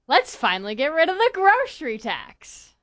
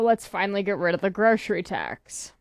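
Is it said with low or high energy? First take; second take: high; low. First: It is said with more energy and oomph. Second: It is said flatly, without much energy.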